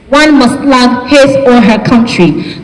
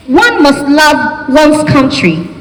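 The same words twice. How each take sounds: First: Said in the usual way. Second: "One must love one's country" said slowly and deliberately; British "one". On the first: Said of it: "Americans will say his or her country". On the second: Shown as a demonstration. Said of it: "British English would just say one's country".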